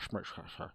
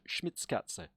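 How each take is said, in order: First: The name is said with little mouth movement, slurred. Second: The name is said with careful, clear mouth movement. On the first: The speaker calls it wrong. "I can't just be like Schmitzkatze" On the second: The speaker calls it right. "trying to practice saying your name"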